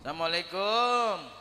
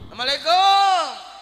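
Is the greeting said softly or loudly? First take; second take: softly; loudly. First: The greeting is said at a normal, calm volume. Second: The greeting is said louder, with a raised voice.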